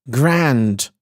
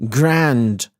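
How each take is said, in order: The two takes are said the same way.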